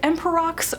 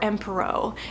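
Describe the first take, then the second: First: The word ends with a clear 'ks' sound. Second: The word ends without any 'ks' sound. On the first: "I'm going with Emperox" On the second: "I think I've heard some people pronounce it Empero"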